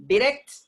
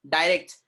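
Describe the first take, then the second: First: Short i in Direct, high and rising; British pronunciation. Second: Long eye vowel in direct; American pronunciation. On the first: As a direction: Direct as "dih-RECT". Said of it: "direct is British sound". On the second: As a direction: direct as "die-RECT". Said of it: "direct is American sound". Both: Shown as a demonstration.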